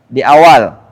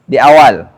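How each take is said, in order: No difference in how they are said.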